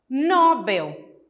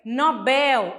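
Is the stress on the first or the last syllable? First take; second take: first; last. First: The stress is on the first syllable. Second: The stress is on the last syllable. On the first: The speaker calls it wrong. "geralmente nós pronunciamos como se ela fosse uma paroxítona" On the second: The speaker calls it right. "mas o correto é Nobel, a última sílaba mais forte"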